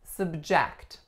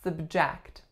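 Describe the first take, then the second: First: The stress is on the second syllable. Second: The stress is on the second syllable.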